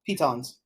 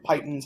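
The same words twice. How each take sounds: First: "pitons" as PEE-tonz; alternate pronunciation. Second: "pitons" as PIE-tunz; alternate pronunciation. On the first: Player naming climbing gear, "pitons" said PEE-tonz. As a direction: say "pitons" with a long EE and full second vowel. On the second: Player offering another way, "pitons" said PIE-tunz. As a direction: say "pitons" with first syllable like "pie". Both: Shown as a demonstration. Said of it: "however you wanna pronounce them".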